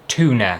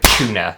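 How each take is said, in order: First: It begins with a plain t sound. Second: It begins with a ch sound. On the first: This is how people in America say it. "Do you say tuna?" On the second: This is how people in the UK say it. "we say like tuna, as in like a C H"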